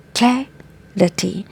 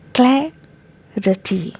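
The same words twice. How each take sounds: First: The first syllable has a short 'a' sound. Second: The first syllable has a short 'a' sound.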